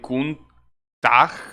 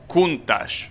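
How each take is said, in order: First: The name ends with a hard g sound. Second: The name ends with an sh sound. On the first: The speaker calls it wrong. "it's kind of like Kuntag. No, I don't know" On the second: The speaker calls it right. "Like sh. Okay, so it's Countach"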